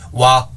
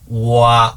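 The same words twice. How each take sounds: First: The glide is said quickly as one sound. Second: The glide is drawn out into two parts. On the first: "짧게 발음하면" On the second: "오의 기운으로 시작해서 아로 가는 거고"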